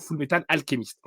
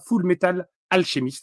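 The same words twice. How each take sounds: First: The name is said with English pronunciation. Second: The name is said with French pronunciation. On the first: The speaker calls it right. "quand on aime bien l'anglais, on devrait dire plutôt" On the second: The speaker calls it wrong. "c'est comme ça que je prononce"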